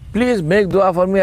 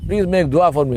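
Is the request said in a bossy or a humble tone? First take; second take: humble; bossy. First: The request sounds humble and polite. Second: The request sounds bossy and demanding. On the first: The speaker is asking a favour respectfully. The speaker calls it right. "Even to request for dua, do that humbly, man" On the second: The listener is treated like a servant. The speaker calls it wrong. "they say it as if it's"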